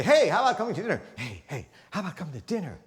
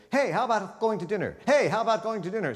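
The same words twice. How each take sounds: First: Change the tune on the repeat; varied inflection. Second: Both takes said high with the same tune; same flat repeat. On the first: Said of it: "You could say". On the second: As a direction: repeat the line with no change in inflection. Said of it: "You would never say". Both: Shown as a demonstration.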